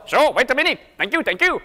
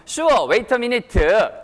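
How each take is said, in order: First: Light Indian-accented English, higher. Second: Very slow Korean-style English, vowel added at the end; Korean-accented English. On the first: Teacher replying in Indian-style English, Indian accent. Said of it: "이게 인도 스타일의 영어고". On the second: Teacher modelling a Korean reply, drawn-out Korean accent. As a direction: draw out the ending like a Korean learner. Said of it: "뒤에 좀 약간 이렇게 끌어주시고요". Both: Shown as a demonstration.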